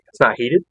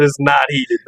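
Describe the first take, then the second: First: Rising on "not heated", "not" lifted as a question; disbelieving question. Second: "not" stressed in a firm falling statement; flat answer. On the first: Wife asking in disbelief at the cold blind, rising question. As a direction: ask "It's not heated?" in a rising, incredulous tune. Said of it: "And she goes". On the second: Husband bluntly telling his wife, stressing "not". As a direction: land "It's not heated." as a plain blunt fact. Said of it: "I said". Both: Retold or imitated.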